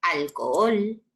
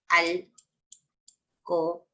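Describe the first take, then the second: First: Said in the usual way. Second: "alcohol" very slowly as al, co, ol; long pauses between the syllables of "alcohol". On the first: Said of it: "cuando digo". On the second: Shown as a demonstration. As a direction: spell out the hiatus in "alcohol": al... co... ol. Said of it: "en sílabas diferentes".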